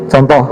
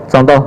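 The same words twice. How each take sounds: No difference in how they are said.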